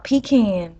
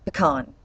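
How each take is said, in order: First: "pecan" said PEE-can, stress on the first syllable, flat a; "pecan" as PEE-kan, the way she rejects; mocking the wrong "pecan" she won't accept; wrong pronunciation. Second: "pecan" said puh-KAHN, stress on the second syllable; "pecan" with a short puh and a long nasal KAHN; right pronunciation. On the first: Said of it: "Not pecan". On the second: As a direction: Georgia native giving the correct "pecan". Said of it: "as I said, pecan". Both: Shown as a demonstration.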